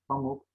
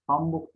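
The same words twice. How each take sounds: First: Said in the usual way. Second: "Pamuk" with an added b, pambuk; extra b after m in "Pamuk"; misspelt form. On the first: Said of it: "doğru yazılışlarını". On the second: Shown as a demonstration. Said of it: "hatalı yazılan sözcüklerin".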